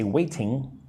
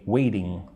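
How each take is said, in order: First: The middle T is a hard, crisp T. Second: The middle T sounds soft, like a D. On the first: The speaker calls it wrong. "I don't say waiting" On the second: The speaker calls it right. "I usually say waiting, like a D"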